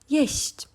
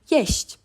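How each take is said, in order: Both takes have the same delivery.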